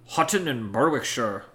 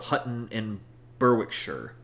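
First: It is said in an imitated Scottish accent. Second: It is said in the speaker's ordinary accent. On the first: "could you imagine in a Scottish accent? ... awful impersonations" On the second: "I'm sure you said that wrong"

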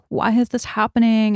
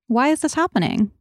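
First: The question sounds fearful and resisting. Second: The question sounds open and curious. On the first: The speaker is resisting the situation in panic. The speaker calls it wrong. "And just resisting" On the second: The speaker is open to learning from the situation. The speaker calls it right. "just be open and curious and non-judgmental"

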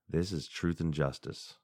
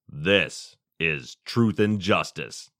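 First: It is said in a plain, ordinary voice. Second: It is said in a deep Batman radio voice.

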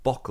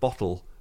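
First: The middle consonant is a k sound. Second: The middle consonant is a t sound. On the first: This is a local Bolton pronunciation. "that is a Bolton thing" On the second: This is the standard pronunciation. "instead of bottle"

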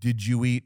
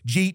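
First: It is said slowly as three words. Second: It is run together fast into one word.

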